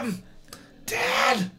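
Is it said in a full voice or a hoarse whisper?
hoarse whisper. It is said in a hoarse whisper.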